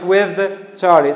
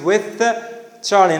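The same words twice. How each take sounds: First: The th in with is voiced. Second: The th in with is voiceless. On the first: The speaker calls it wrong. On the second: The speaker calls it right. "It becomes"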